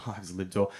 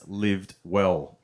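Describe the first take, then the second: First: Much softer, chuckling the name again; repeated through a laugh. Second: Said in the usual way. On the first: Shown as a demonstration. Comic repeating the rehab name softly through laughter. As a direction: savour the ironic name, quietly laughing. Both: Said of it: "the name of the rehab clinic was actually called".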